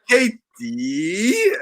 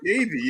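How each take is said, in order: First: The middle consonant is a crisp, strong T. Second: The middle consonant is a soft, D-like sound. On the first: The speaker is imitating a heavily accented way of saying it. The speaker calls it wrong. "she's like Katie" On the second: This is the relaxed, everyday American way of saying it. The speaker calls it right. "I'm like Katie"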